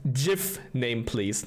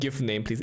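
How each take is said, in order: First: The first word begins with a J sound. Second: The first word begins with a hard G. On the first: The speaker calls it right. "pronounced like Jif Name Please" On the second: The speaker calls it wrong. "not with a hard G"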